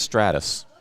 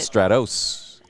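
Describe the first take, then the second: First: The last syllable has a reduced 'us' sound. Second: The last syllable has a full 'oss' sound. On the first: This is how people in Texas say it. "in Texas, it's Stratus" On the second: This follows the spelling of the name. "It's an O S"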